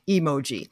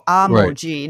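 First: The word starts with an 'e' vowel sound. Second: The word starts with an 'a' vowel sound. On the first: The speaker calls it wrong. "not emoji" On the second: The speaker calls it right. "It's A-M-O-J-I. So emoji"

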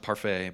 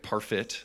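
First: The last syllable sounds like 'fay'. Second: The last syllable sounds like 'fit'. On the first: The speaker calls it wrong. "I'm pretty sure it's not Parfait" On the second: The speaker calls it right. "but Derek Parfit, I think, is his name"

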